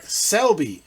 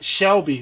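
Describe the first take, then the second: First: The name begins with an s sound. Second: The name begins with a sh sound. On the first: The speaker calls it right. "Mark Selby, S C L B Y" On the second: The speaker calls it wrong. "It's not Shelby, not S H"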